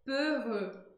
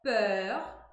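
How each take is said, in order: First: "peureux" with a closed rounded E in both syllables; "peureux" closed E, lips tightly rounded; French peureux. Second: "peur" with an open rounded E; "peur" open E, lips rounded; French peur. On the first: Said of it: "e no outro eu pronuncio E". ("peureux" com E fechado e biquinho) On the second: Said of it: "numa eu pronuncio E". ("peur" com E aberto) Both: Shown as a demonstration.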